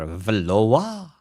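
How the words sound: The name is said with a French accent. The speaker calls it right. "we are Valoa. For we are French"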